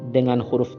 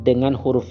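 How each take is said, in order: The two takes are said the same way.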